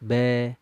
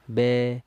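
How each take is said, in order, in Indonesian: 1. Vokal ini diucapkan dengan mulut hanya sedikit terbuka. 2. Vokal ini diucapkan dengan mulut hanya sedikit terbuka.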